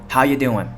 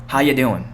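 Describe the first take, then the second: Both takes have the same delivery.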